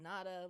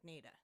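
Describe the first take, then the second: First: The first vowel is an open 'ah' sound. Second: The first vowel is a long 'ay' sound. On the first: The speaker calls it wrong. "naturally this would be called Nada, like De Nada" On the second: The speaker calls it right. "pronounced with a long A like Nada"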